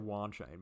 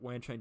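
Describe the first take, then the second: First: The name is said in an Australian way. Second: The name is said in a non-Australian way. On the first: "You guys know I'm Australian. I should say Wanchain" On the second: "Wanchain just sounds more natural"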